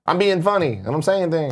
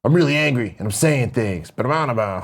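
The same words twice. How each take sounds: First: Higher-pitched mock whine; whiny rapper. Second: Angry rapper. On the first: Host mimicking a rapper's early voice, whiny and high. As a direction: imitate a rapper whining that he's joking. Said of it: "'cause he had the whiny". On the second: Retold or imitated. Host contrasting the rapper's later voice, mildly mock-angry. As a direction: lightly imitate a rapper turned serious and mad. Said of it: "it turned into more like".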